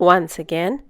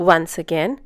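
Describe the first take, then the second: Both takes have the same delivery.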